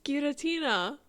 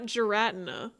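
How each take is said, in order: First: The name is pronounced in a Japanese style. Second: The name is pronounced in an English style. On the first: The speaker calls it right. "That's how you would say it in Japanese" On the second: The speaker calls it wrong. "Not Giratina"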